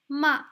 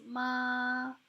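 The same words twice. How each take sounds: First: The pitch falls sharply downward. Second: The pitch stays steady and level. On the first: It means scold. "the falling tone sounds like this" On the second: It means mom. "So this is the basic tone"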